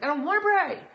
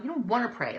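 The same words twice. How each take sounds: First: High, loud mock protest; mock refusal. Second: Said in the usual way. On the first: Upset believer balking at prayer, loud high mock protest. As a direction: play up an upset refusal to pray.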